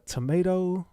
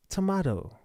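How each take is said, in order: First: "tomato" with a long ay, to-MAY-do; teasing "tomato" as to-MAY-do; tomato the first way. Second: "tomato" with a broad ah, to-MAH-do; teasing "tomato" as to-MAH-do; tomato the second way. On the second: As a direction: say "tomato" as to-MAH-do, falling at the end. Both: Shown as a demonstration.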